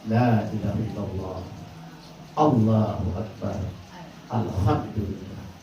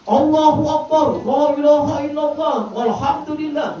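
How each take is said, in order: First: It is said in a soft voice. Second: It is shouted loudly.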